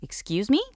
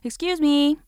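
First: It is said in an indignant tone. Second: It is called out to get attention.

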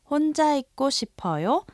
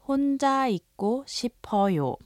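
First: The voice rises at the end as a question. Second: The voice falls at the end as a statement. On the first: The speaker politely asks if someone wants to be alone. "ask a question by raising the intonation" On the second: The speaker politely states they want to be alone. "To be polite, simply add the honorific ending 요"

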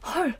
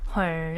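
First: It sounds surprised, with a gasp. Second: It sounds dismayed, as at bad news.

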